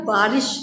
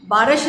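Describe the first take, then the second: First: बारिश with a long first "बा" and short "रिश"; correct pronunciation. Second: बारिश said wrongly as "बरश", first vowel short; wrong pronunciation demo. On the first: Teacher giving children the right बारिश, long "बा". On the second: Teacher showing children the wrong way, "बरश" for बारिश. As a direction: mispronounce बारिश as "बरश" on purpose. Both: Shown as a demonstration. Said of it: "बारिश नहीं होता".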